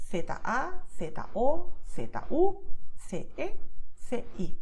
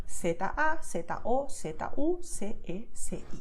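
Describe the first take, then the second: First: Castilian Spanish letter names, lisped "th" for Z and C. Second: Latin American Spanish, Z and C said as "s"; Latin American accent. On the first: Teacher showing her own Castilian pronunciation, Castilian lisped Z and C. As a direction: spell it in Castilian, Z as "theta". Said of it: "my way of pronouncing Castilian Spanish". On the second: Teacher showing how Latin Americans say it, Latin American s. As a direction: spell it the Latin American way, Z as "seta". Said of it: "in this accent would be". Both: Shown as a demonstration.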